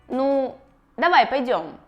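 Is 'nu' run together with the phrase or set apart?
set apart. 'Nu' is set apart with its own emphasis. The speaker calls it wrong. "когда слово «ну» постоянно выделяется"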